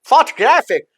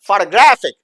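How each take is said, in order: First: It is said in a British accent. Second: It is said in an American accent. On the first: "अगर Britain बोलेगा तो वो बोलेगा" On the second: "American बोलेगा"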